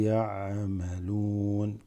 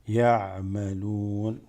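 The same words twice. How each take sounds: Both takes have the same delivery.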